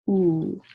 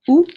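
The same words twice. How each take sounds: First: The vowel is held long. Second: The vowel is short. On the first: "and then long vowels" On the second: "we have short vowels"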